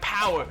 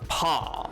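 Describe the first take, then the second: First: Said in an ordinary everyday accent. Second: Said in a posh accent with a drawl. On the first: "instead of saying like power" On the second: "it sounds like they're saying pa, but like just with a bit more of a drawl"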